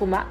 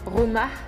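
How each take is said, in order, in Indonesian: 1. Bunyi h di akhir dihilangkan. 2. Bunyi h di akhir diucapkan. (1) "kita bilang rumah. Hanya gak kedengaran" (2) "Kita gak bilang rumah"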